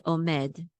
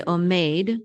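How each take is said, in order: First: Omed ending in med with a short eh. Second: Omeid ending like English made; wrong long A. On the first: Teacher giving the correct form, short E. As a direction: say omed with no ay glide. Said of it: "say omed". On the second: Teacher showing what not to say, long ay. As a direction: glide the vowel in omeid to ay. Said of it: "so don't say omeid". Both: Shown as a demonstration.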